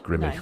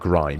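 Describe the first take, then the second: First: The name is said as two syllables. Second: The name is said as one syllable. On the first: The speaker calls it right. "It's Grimmy" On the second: The speaker calls it wrong. "it's not grime, is it?"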